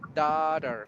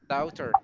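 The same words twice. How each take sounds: First: The word is said in an American accent. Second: The word is said in an Australian-Irish accent. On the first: "American, yes, we say daughter" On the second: "Australian or uh, Irish person who sounds like"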